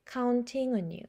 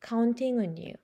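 The two takes are said the same way.

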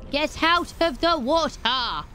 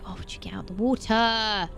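First: A slow, stretched yell; drawn-out yell. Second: Said in the usual way. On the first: Real, not acted. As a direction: draw the yell out long. Yelling at creature again.

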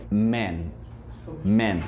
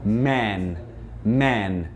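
First: Man said low and slow with a short E sound, like "men". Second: Man said low and slow with the mouth wide open, like "mæn". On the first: Teacher models the plural for students, short E vowel. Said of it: "É o man com E". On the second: Teacher models the singular for students, mouth wide open. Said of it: "vai abrir a boca pra falar A". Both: Shown as a demonstration.

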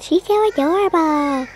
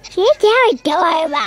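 First: Higher, lightly imitated monster voice. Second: High, loud strange monster voice. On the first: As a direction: recreate the odd monster voice. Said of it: "like, a monster voice whenever I said". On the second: Real, not acted. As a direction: voice suddenly jumps into a monster squeal. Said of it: "what happened to my voice right there".

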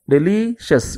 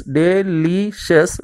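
First: "Delicious" as deli - shes; small break before the last syllable of "Delicious"; split before ending. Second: "delicious" slowly as de - li - shes; three separate beats on "delicious"; split into syllables. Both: Shown as a demonstration. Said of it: "divide the words into syllables".

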